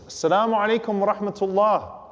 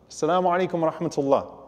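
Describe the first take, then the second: First: It is said in a slightly raised voice. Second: It is said at a normal volume.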